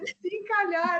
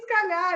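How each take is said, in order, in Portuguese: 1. A primeira vogal é pronunciada totalmente, como duas palavras. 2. A primeira vogal é apagada, as palavras ficam juntas. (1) "é se encalhar" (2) "Não é escalhar"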